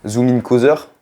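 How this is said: It is said with a French accent.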